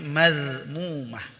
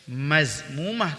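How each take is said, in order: First: The consonant after ma is a soft dh. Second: The consonant after ma is a buzzing z. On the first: The speaker calls it right. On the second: The speaker calls it wrong. "Jangan sampai"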